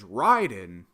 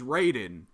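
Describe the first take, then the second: First: The first syllable sounds like 'rye'. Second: The first syllable sounds like 'ray'.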